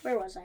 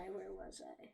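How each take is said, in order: First: Said in the usual way. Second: Muttered to self. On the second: Real, not acted.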